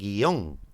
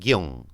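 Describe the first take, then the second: First: The vowels are split into two syllables. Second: The vowels are joined into one syllable. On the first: This is how it is said in Spain. "no dicen guión" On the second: This is how it is said in most of Latin America. "dicen guión"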